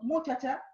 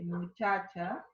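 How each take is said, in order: First: The stress is on the first syllable. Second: The stress is on the second syllable. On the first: The speaker calls it wrong. "voy a pensar que es esdrújula" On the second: The speaker calls it right. "entonces sería una palabra grave"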